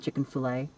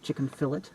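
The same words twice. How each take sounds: First: It is said with a mainstream American pronunciation. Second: It is said with a Northern Irish pronunciation. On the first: "rather than" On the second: "they tell me I sound like a redneck because I pronounce uh, things chicken fillet"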